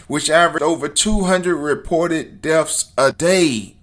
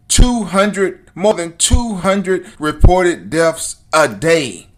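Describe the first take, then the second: First: Said in the usual way. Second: "Two hundred" punched louder, "more than two hundred" slowed and pressed; insistent repeat of "two hundred reported deaths a day", louder and slower; emphatic repetition. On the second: Real, not acted. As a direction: hammer the number home, slow and loud. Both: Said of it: "Are you hearing me?".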